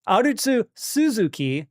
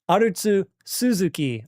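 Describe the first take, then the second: First: The two names run together without a pause. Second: There is a pause between the two names. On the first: The speaker calls it wrong. "It's hard to not say that coming off of the tsu of Arutsu" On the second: The speaker calls it right. "I have to like pause in the middle to say it correctly"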